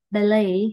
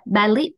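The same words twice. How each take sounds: First: "ballet" as "ba-LAY", t silent; silent final t. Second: "ballet" as "ba-lít", closed with a t; mistaken Vietnamese reading. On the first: Teacher correcting the usual misreading, "ballet" with silent t. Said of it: "Thì cái âm chi nó là âm câm". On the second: Teacher showing students the common misreading, mispronounced "ballet" ending in t. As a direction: say "ballet" with a short, rising "lit" ending. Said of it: "tiếng Việt mình hay đọc là". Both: Shown as a demonstration.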